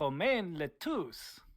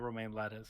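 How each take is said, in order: First: The surname is said French-style, as le-touce. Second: The surname is said like the word lettuce. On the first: "I'm assuming that's how I'm supposed to pronounce that" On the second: "it's not Romain Lettuce, is it?"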